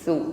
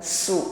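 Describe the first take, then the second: First: The consonant is a breathy th without hissing. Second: The consonant is a hissing s sound. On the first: The speaker calls it right. "ada nafas yang berhembus namun tidak ada bunyi desis" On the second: The speaker calls it wrong. "bukan su sebagaimana pengucapan sin"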